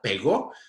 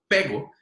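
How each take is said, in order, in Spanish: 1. El acento está en la última sílaba. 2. El acento está en la primera sílaba. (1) "si yo digo pegó como una palabra aguda" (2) "Mientras que si yo digo pego"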